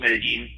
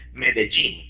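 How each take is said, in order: First: The 'll' is not said like a 'j'. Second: The 'll' is said like the 'j' in 'gene'. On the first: "it's called Medellin" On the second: "some of the local folk would pronounce it Medellin, like the word "gene" there"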